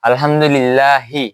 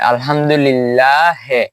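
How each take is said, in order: First: The final vowel is a clear 'ee' sound. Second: The final vowel is an 'eh' sound. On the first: "হার শিকারে হি" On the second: "এখানে পড়বো একার দিয়ে"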